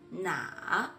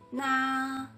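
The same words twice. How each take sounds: First: The pitch dips low then rises. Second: The pitch stays high and level.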